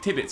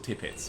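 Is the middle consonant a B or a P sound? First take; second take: B; P. First: The middle consonant is a soft B sound. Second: The middle consonant is a crisp P sound.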